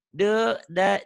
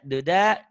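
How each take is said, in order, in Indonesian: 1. Suku katanya dipisah jeda. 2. Suku katanya nyambung tanpa jeda.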